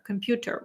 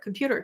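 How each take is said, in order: First: It is said with a non-native foreign accent. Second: It is said with a North American accent. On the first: "instead of computer" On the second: "repeat it the way they say it"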